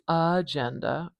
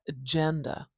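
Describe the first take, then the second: First: The first vowel is full and clearly pronounced. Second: The first vowel is very short and weak. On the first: The speaker calls it wrong. "I'm not saying agenda" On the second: The speaker calls it right. "do you hear how short that first vowel is?"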